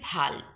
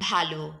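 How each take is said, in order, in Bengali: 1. শব্দটি স্বরহীন ব্যঞ্জনধ্বনি দিয়ে শেষ হয়। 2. শব্দটি ও-স্বরধ্বনি দিয়ে শেষ হয়। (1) "ভালো যদি বিশেষ্য হয় তবে উচ্চারণ হবে ভাল, মানে কপাল" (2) "কিছু বিশেষণ শব্দের শেষে যদি অধ্বনি থাকে তাহলে কিন্তু ও এর মতো উচ্চারিত হবে"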